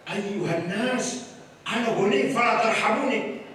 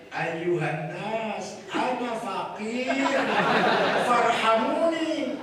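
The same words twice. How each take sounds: First: Rich cleric's proud Arabic. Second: Very slow, pitiful plea; poor cleric's pleading Arabic. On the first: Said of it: "Ngomongnya gimana?". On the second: Kiai mocking the poor cleric, slow pitiful plea. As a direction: drag it out like a beggar. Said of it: "Itu pakaiannya ngomongnya gini". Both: Pretend.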